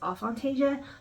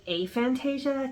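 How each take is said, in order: First: The word begins with a short 'uh' sound. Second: The word begins with an 'ay' sound. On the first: The speaker calls it wrong. "I made it up as aphantasia" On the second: The speaker calls it right. "it's actually aphantasia because a is a prefix that means not, like atypical"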